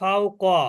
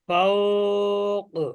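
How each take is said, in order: First: The middle vowel is kept short. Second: The middle vowel is drawn out long. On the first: "মাধব মাধ হচ্ছে না" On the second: "একদিকে কলকলাও হবে আর একদিকে মাদও হবে"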